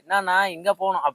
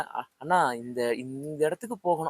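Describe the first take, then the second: First: It is said confidently in local Chennai slang. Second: It is said hesitantly, like an unfamiliar outsider.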